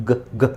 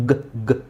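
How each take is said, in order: The two takes are said the same way.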